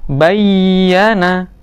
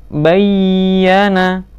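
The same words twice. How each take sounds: Both takes have the same delivery.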